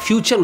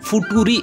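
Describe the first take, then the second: First: The middle consonant is a ch sound. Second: The middle consonant is a plain t sound. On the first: The speaker calls it right. "এটা ফিউচার উচ্চারণ হয়" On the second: The speaker calls it wrong. "এটা কিন্তু ফুটুরি না"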